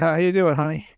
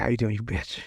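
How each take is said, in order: First: Covering up in a normal, audible voice; mock-innocent greeting. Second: Low, soft muttered jab; retold aside, kept under the breath; under his breath. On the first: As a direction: say it openly, as if nothing was muttered. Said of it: "I said". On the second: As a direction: mutter it bitterly, much lower and softer. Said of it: "under his breath".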